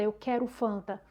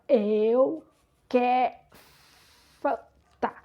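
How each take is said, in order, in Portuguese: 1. A frase é rápida e fluente. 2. A frase é lenta e arrastada. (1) "eu não dizia é, é, tão desenvolta" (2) "eu falava com a voz arrastada"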